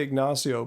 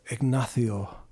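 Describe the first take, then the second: First: Said in the usual way. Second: Ignacio low, with a Castilian "th" for the c; Spanish flair. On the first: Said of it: "trying to say Ignacio". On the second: Shown as a demonstration. Streamer demonstrating Ignacio for viewers, low Spanish accent with "th". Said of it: "with the Spanish flair".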